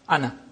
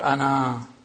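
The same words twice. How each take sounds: First: The final vowel is short. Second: The final vowel is long. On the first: The word is read on into the next word. The speaker calls it right. "as if it is hamza plus noon fatha, ana" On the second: The reader pauses on the word. The speaker calls it wrong. "not ana"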